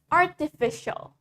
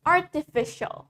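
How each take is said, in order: First: The t is a clear t sound. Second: The t is a clear t sound.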